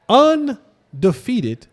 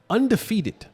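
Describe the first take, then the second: First: "undefeated" stretched slowly, syllable by syllable; drawn-out emphasis. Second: Said in the usual way. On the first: Real, not acted. Host hammering home the Vikings' record, drawn-out emphasis. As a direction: draw out "undefeated" for effect.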